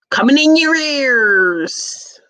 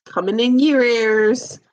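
First: High, slow announcer-like holler; big, drawn-out catchphrase call. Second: Lightly lilted, less forceful call; restrained sing-out; toned-down catchphrase. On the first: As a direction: stretch it out long, pitched up high. Calling out a catchphrase. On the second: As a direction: toss the catchphrase out with a gentle lift. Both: Acted.

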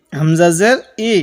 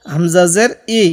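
The two takes are said the same way.

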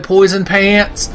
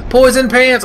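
First: Said in the usual way. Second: Higher, louder excited cry of the name; excited exclaim. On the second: Pretend. Gamer shouting over loot, excited cry. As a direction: call it out with delight.

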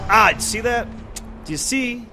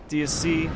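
First: Exasperated high ask. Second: Said in the usual way. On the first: Real, not acted. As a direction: do you see pitched up high. Showing viewers the annoying enemy.

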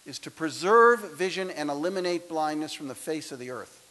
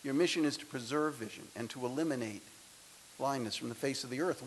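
First: Booming, grandiose mission statement; grand proclamation. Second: Softer, faster, matter-of-fact; quiet restatement. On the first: Acted. Speaker to graduates, a booming mock-grand mission statement. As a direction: proclaim it like a lofty oath. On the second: Real, not acted. Speaker to graduates, restating the mission softly and quickly. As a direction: drop the pomp and just say it plainly and quickly.

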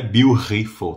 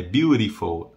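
First: "beautiful" with breathy Brazilian R; T of "beautiful" turned into H-like R; wrong strong R. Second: "beautiful" with a light flapped R; T of "beautiful" softened to a tap; tapped R. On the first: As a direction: say "beautiful" as byu-hee-ful. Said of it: "Não é beautiful". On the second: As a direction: say "beautiful" as byu-ri-ful. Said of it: "Como se fosse um R". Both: Shown as a demonstration.

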